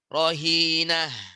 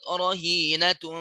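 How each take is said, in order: First: The word ends in an h sound, then stops. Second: The word ends in a t sound, linked on. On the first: The reading stops on this word. "Kalau wakaf di sini, rohinah menjadi ha dia" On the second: The reading continues without stopping. "dia nggak wakof, wasol terus, ya tetap dibaca menjadi tak"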